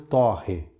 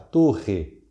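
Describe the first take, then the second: First: The stressed o vowel is open. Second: The stressed o vowel is closed. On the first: It is the verb, to toast. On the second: It is the noun, a tower.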